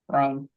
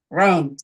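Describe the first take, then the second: First: The word is said quietly and muffled. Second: The word is said loudly and muffled.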